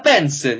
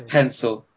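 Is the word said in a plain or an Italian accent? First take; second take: Italian; plain. First: The word is said in an Italian accent. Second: The word is said in a plain accent. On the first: "say something in an Italian accent and it already sounds so much better" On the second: "the normal word"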